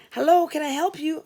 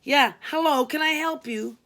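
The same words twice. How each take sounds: First: Said in the usual way. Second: Snappish, louder and impatient greeting; bitchy. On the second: Acted. Tired receptionist answering yet another call, bitchy and curt. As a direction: bite off the greeting, fed up. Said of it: "I answered quite bitchily".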